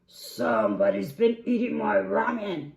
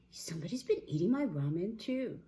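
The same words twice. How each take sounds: First: Booming, outraged big bear; Papa Bear. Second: Higher, milder bear voice; a touch of higher-voiced dismay; Mama Bear. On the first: Acted. Papa Bear at his ramen bowl, outraged roar. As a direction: roar it very loudly. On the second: Mama Bear at her ramen, mildly dismayed.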